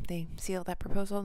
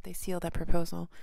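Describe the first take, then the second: First: Said in the usual way. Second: "seal" pushed out louder; stress on seal. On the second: Shown as a demonstration. Reader correcting herself, punching "seal". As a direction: lean hard on "seal", louder line. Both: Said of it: "not seal it off".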